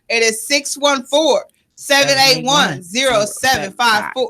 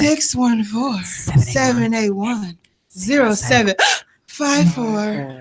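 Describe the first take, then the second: First: It is read at a normal pace. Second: It is read slowly and seductively.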